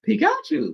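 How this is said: The name is said in a put-on character voice. It imitates how the creature itself says its name. The speaker calls it wrong. "Like he's a Pokemon that doesn't speak English, so he goes Pikachu"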